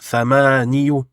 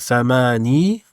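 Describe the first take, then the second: First: The word ends with a short 'yu' syllable. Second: The word ends with a long 'ee' vowel. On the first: This is the regular but heavy form. The speaker calls it wrong. "Normalement, on devrait dire thamaniyu" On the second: This is the lightened form actually used. The speaker calls it right. "le ya devient une prolongation"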